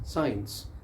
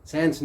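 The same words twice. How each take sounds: First: साइंस with the full sai diphthong; correct science. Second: साइंस flattened to sens; wrong science. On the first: Teacher modelling the right साइंस for students. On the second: Teacher showing the common wrong sens for साइंस. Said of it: "साइंस नहीं है". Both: Shown as a demonstration.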